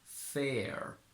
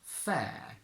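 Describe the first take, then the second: First: American accent, with the lower America vowel. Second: British accent, with a long, open e vowel. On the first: "In standard American, however, we get the same sound that we had in America" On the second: "in modern British English as a normal, long, open e"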